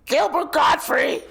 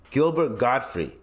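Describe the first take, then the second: First: High, loud, strained screech; Gilbert Gottfried. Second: Said in the usual way. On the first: Retold or imitated. Naming the comedian by imitating him, high loud screech. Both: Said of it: "Like, that guy".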